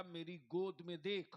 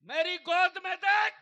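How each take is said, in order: First: Said in the usual way. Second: Much higher, very loud command; thundering preacher's shout. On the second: Acted. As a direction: shout each word out as the Kaaba's command. Preacher repeats quote at full force. (गरजती ऊँची आवाज़ में हुक्म)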